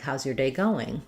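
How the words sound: The stress falls on going. It asks specifically how the day is progressing. "I'm asking more specifically about going"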